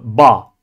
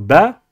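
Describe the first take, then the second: First: It is said heavy, with emphasis. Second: It is said light, without emphasis. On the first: The speaker calls it wrong. "Nous ne disons pas la lettre ba" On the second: The speaker calls it right. "On dit bien la lettre ba"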